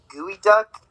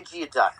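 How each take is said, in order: First: The word begins with a 'gooey' sound. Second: The word begins with a 'gee-oh' sound. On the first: The speaker calls it right. "It's pronounced like gooey duck" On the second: The speaker calls it wrong. "it's not even pronounced that"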